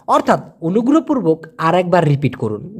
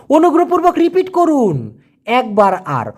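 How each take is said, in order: First: Said in the usual way. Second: Lifted, careful polite request with অনুগ্রহপূর্বক leaned on; formal polite request. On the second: Shown as a demonstration. Teacher modelling a formal polite plea to repeat. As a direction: ask politely to hear it once more.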